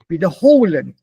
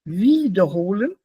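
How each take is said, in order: First: The stress is on the second syllable. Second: The stress is on the first syllable. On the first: The prefix is not separable. "nicht trennbar" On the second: The prefix is separable.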